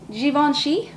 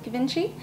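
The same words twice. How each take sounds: First: The name is said in a posher way. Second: The name is said in a plain way. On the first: "That sounds a little bit more hoity-toity" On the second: "I believe that's how you pronounce it"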